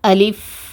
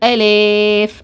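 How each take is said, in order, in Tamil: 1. நடு உயிரெழுத்து குறுகிய i. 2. நடு உயிரெழுத்து e-யை நோக்கி வளைகிறது. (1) "இந்த மாதிரி தான் உச்சரிக்கணும்" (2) "ஏ லே இந்த மாதிரி சாச்சி சாச்சி ஓதுவாங்க, இந்த மாதிரியும் ஓதக்கூடாது"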